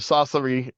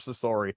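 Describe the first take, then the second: First: The name is said with a Japanese pronunciation. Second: The name is said with an American pronunciation. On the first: "is usually what they say on screen" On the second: "Americans will call her Sasori"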